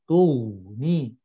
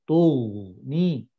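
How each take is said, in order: The two takes are said the same way.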